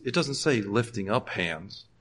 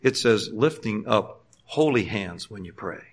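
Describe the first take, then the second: First: "doesn't" leaned on, slow and quiet; slow emphasis on "doesn't"; stress on DOESN'T. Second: "holy" drawn out as the key word, slow; slow deliberate stress on "holy". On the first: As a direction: press the word "doesn't" to correct the reading. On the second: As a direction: lean hard on "holy" in "lifting up holy hands". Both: Shown as a demonstration. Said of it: "put the emphasis on holy instead of lifting up hands".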